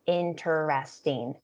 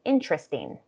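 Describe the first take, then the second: First: "interesting" slowly in four full syllables, in-ter-est-ing; careful, unreduced "interesting". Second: "interesting" reduced to in-tres-ting; fluent, shortened "interesting" in three syllables. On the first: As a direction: sound every syllable of "interesting". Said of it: "sometimes it's said as a four-syllable word". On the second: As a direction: drop the middle vowel of "interesting". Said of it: "It becomes a three-syllable word". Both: Shown as a demonstration.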